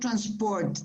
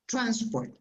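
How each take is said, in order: First: The stress is on the second syllable. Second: The stress is on the first syllable. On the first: The speaker calls it wrong. "It's not transport, Diego. That sounds like French in a way" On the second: The speaker calls it right. "the apostrophe is before T"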